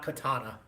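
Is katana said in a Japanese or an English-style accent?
English. It is said with English-style pronunciation. The speaker calls it wrong. "not katana. Not as TikTok says"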